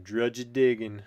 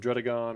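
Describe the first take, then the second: First: The name ends with a 'diggin' sound. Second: The name ends with a 'gon' sound. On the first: It sounds cooler. The speaker calls it wrong. "I am saying it wrong, but it sounds a little cooler" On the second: It is the supposed proper way. The speaker calls it right. "or however you're supposed to say it"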